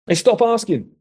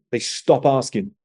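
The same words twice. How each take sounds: First: "They stop asking" pitched high, falling at the end; emphatic repeat. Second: Said in the usual way. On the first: Real, not acted. Mentor repeats his point to a young man, emphatic "They stop asking".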